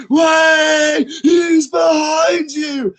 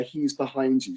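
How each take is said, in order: First: High, loud, slow yell; full-throated shout. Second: Said in the usual way. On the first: Retold or imitated. Tipsy parents yelling back at the pantomime stage. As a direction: roar it with the whole crowd. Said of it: "they're like". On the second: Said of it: "it always starts with the".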